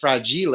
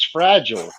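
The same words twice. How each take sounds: First: It is pronounced in a French-sounding way. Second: It is pronounced the ordinary English way. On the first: "he pronounces that fragile and says, didn't he say, "Oh, it must be French"" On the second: "on the outside of the box it says fragile"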